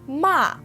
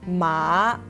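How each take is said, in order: First: The pitch falls sharply from high. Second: The pitch drops low, then rises again. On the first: It means to scold. "Ma has the fourth tone" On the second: It means horse. "Ma has the third tone"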